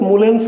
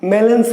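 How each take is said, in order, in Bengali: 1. পদবির প্রথম স্বরধ্বনিটি 'u' ধ্বনি। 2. পদবির প্রথম স্বরধ্বনিটি 'a' ধ্বনি। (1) "কেউ কেউ বলেছেন যে মুলেন্স" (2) "ম্যালেন্স হোক"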